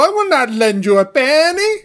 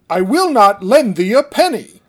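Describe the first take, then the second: First: It is said in a stereotypical Italian accent. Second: It is said without a put-on accent.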